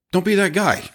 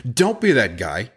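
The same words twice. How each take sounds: First: "Don't be that guy" pitched much higher, falling hard on "be"; emphatic warning. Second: Said in the usual way. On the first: Real, not acted. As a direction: punch "be" up high, then drop it. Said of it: "Don't be that guy, right?".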